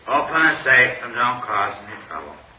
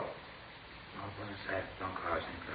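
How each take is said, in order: First: It is said more loudly. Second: It is said more quietly.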